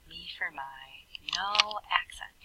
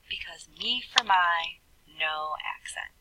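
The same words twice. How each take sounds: First: Much softer, almost whispered; soft repeat. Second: Said in the usual way. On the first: Shown as a demonstration. Teacher to class, repeating the rule in a soft whisper. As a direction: drop the voice to a hush for the reminder.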